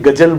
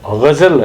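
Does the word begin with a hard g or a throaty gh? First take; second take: hard g; throaty gh. First: It begins with a plain hard g sound. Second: It begins with a throaty gh sound. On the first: The speaker calls it wrong. "उसको भी गजल बोल देंगे" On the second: The speaker calls it right. "जैसे गजल है"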